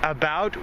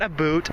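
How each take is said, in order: First: The second syllable sounds like 'bout'. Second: The second syllable sounds like 'boot'. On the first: It is how Canadians really talk. The speaker calls it right. "we say about" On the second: It is a stereotype of how Canadians talk. The speaker calls it wrong. "not a boot"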